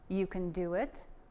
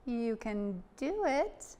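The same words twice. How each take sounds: First: It is said in a normal speaking voice. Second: It is said in a high falsetto voice.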